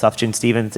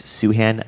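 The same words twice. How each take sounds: First: Sufjan said as spelt, with F and J sounded; mispronounced Sufjan. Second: Suhan said SOOF-yahn or SOO-yahn, with no J sound; correct name pronunciation. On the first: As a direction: read Sufjan letter by letter, the wrong way. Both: Shown as a demonstration. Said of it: "it's not pronounced [name]".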